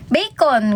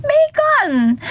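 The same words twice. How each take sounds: First: Said in the usual way. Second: Bursts out laughing on a much higher bacon; laughing exclamation. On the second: Shown as a demonstration. Streamer repeats the food joke, laughing high. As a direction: laugh and throw the word up high.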